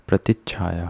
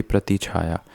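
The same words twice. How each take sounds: First: प्रतिच्छाया with a held "ch-chh" after "prati"; correct doubled consonant. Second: प्रतिछाया with one light "chh", no held stop; wrong single consonant. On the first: Teacher correcting, प्रतिच्छाया with doubled "chchh". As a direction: stop briefly on च् before छा in प्रतिच्छाया. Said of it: "आधा च होगा". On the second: Teacher showing the error, प्रतिछाया without doubling. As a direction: run "prati" straight into "chhaya" in प्रतिछाया. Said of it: "ना कि". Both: Shown as a demonstration.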